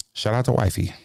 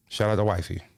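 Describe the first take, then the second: No difference in how they are said.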